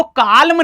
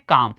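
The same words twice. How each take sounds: First: काल्म with the l sounded; wrong pronunciation. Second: काम with silent l; long aa straight into m in काम; right pronunciation. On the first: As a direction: voice an l before the m in काल्म. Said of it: "काल्म नहीं पढ़ते". (काल्म में 'ल' बोलकर गलत उच्चारण) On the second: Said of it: "इसको क्या पढ़ते हैं". (काम, 'ल' चुप रखकर) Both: Shown as a demonstration.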